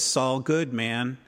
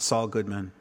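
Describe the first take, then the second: First: The name is said slowly and carefully. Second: The name is said quickly and fluently. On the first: The speaker is still unsure of the new name. The speaker calls it wrong. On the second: The speaker is fully at ease with the name. The speaker calls it right.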